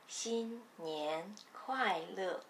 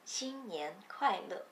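First: The phrase is spoken slowly and carefully. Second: The phrase is spoken at normal conversational speed.

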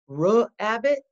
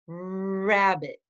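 First: An extra vowel sound follows the r. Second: The r leads straight into the vowel. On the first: The speaker calls it wrong. "Do we say ruh-abbit? No" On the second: The speaker calls it right. "We say rabbit. That's right"

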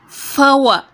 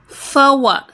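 Both takes have the same delivery.

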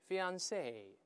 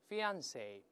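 First: The stress is on the last syllable. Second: The stress is on the middle syllable. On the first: "在最后都行" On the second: "重音在中间"

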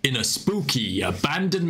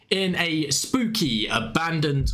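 First: The speaker uses a deep put-on voice. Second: The speaker uses their normal everyday voice.

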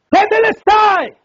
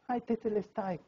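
First: It is shouted loudly and forcefully. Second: It is said weakly, like someone dying.

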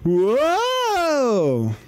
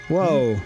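First: It is said imitating the character's voice. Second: It is said in a plain voice.

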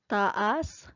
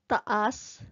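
First: The stress falls on the second syllable. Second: The stress falls on the first syllable. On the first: It means up. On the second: It means long or tall.

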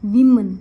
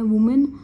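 First: The first vowel sounds like 'ih'. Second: The first vowel sounds like 'oo'. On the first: The speaker calls it right. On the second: The speaker calls it wrong.

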